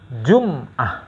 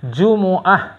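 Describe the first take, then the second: First: The m is followed by no vowel. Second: The m is followed by an u vowel. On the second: "yang paling fasih Jumu"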